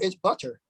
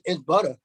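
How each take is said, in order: First: Butter is said in a careful, formal way. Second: Butter is said in a casual Bronx way.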